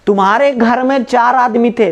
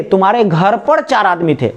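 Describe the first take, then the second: First: में stressed in the sentence. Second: पर stressed in the sentence. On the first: Teacher contrasting में with पर for the class, stressing में. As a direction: lean on में. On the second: Teacher contrasting पर with में for the class, stressing पर. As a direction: lean on पर. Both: Shown as a demonstration. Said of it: "दोनों word में कोई difference है क्या".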